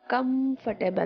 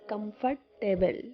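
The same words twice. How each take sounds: First: The ending is short and reduced, not 'table'. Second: The ending is said fully like the word 'table'. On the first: The speaker calls it right. "Comfortable, not comfortable" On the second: The speaker calls it wrong. "they pronounce it like is comfortable, table"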